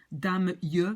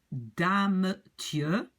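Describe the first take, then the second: First: "ye" straight after "Dame"; awkward example form. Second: "dame tieu" slowly, ending in a t-y glide; correct diminutive demo. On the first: Teacher shows learners what sounds bizarre, awkward example form. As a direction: sound out "Dame, ye" as two separate bits, ending on a y-glide. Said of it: "ça fait très bizarre". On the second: Teacher shows learners the right ending, slow pronunciation demo. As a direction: sound out "tieu" with a t before the glide. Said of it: "on va dire". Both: Shown as a demonstration.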